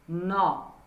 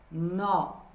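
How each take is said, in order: First: The vowel is an open O sound. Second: The vowel is an open O sound.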